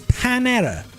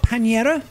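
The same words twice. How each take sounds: First: The name is said with an English pronunciation. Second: The name is said with a Spanish pronunciation. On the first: "it's Panera" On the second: "So it's not Panera"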